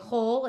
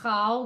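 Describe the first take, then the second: First: The vowel is an o sound. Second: The vowel is an open a sound. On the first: The speaker calls it right. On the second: The speaker calls it wrong. "We don't say chal"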